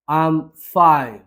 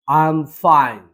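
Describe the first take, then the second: First: Very slow, each word drawn out; slow repeat. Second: Said in the usual way. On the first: Shown as a demonstration. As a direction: spell it out slowly for the learner. (খুব ধীরে বলা)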